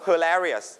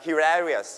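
First: "hilarious" starting with a schwa, "huh"; American pronunciation. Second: "hilarious" starting with "he"; British pronunciation. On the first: Teacher models it for everybody, "hilarious" with American "huh". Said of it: "เอชไอ เป็นเสียงชวา คือเสียงคำว่า huh". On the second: Teacher contrasts British with American, "hilarious" with "he". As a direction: say "hilarious" as hee-larious, the British way. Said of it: "ถ้าเป็น British จะเป็น he". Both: Shown as a demonstration.

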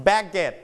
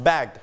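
First: "baguette" said BAG-get, a mistaken past tense; wrong extra syllable. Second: "bagged" as one syllable, BAGD; softened final d. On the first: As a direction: say "baguette" as bag plus a full -et. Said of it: "it's not". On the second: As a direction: end "bagged" on a light d. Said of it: "volume down". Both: Shown as a demonstration.

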